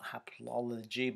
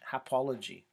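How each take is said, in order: First: Both similar syllables are pronounced in full. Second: One of the similar syllables is dropped. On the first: "we probably say not haplology" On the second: "but hapology"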